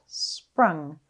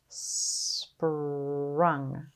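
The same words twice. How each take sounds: First: The word is said quickly as one unit. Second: The word is drawn out slowly, sound by sound. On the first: "Say it fast" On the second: "Tap and stretch"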